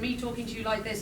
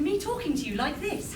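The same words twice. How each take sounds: First: It is spoken in a relaxed, everyday English accent. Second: It is spoken in an exaggerated, old-fashioned posh accent. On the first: This is how English people actually speak. "It goes from me talking to you like this" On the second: This is a fake, stereotyped imitation of English speech. "something along the lines of how Mary Poppins speaks, which doesn't sound particularly English"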